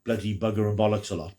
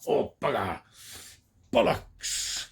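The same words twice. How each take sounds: First: Said in the usual way. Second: Mock English swearing. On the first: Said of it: "people who say". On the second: Reviewer mocking the American idea of English talk, hammed-up put-on swearing. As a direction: spoof the cliché Brit cursing in a put-on voice. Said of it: "we all talk like that".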